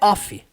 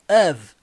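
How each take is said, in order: First: The word ends with a voiceless F sound. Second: The word ends with a voiced V sound. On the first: The speaker calls it wrong. "não é off" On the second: The speaker calls it right. "Of é um som do V"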